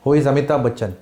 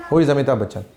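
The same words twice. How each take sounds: The two takes are said the same way.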